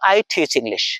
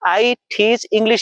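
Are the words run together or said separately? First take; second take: together; separately. First: Teach and English are run together smoothly. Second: Each word is said separately, with breaks.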